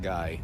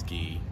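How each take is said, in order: First: The name is said with an 'eye' vowel. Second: The name is said with an 'ee' vowel. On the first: The speaker calls it wrong. "That's not guy" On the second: The speaker calls it right. "That's Gee"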